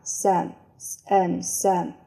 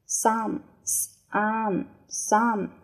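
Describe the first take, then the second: First: "some" reduced to a quick unstressed s'm with a schwa; weak form some. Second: "some" said in full with a clear open vowel, like SUM; strong form some. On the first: Teacher giving the second reading, weak "some". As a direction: swallow the vowel of "some". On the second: Teacher reading the word list, full form of "some". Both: Shown as a demonstration. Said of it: "第二种读法".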